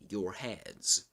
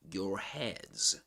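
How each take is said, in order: First: The r at the end of 'your' is pronounced. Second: The r at the end of 'your' is pronounced.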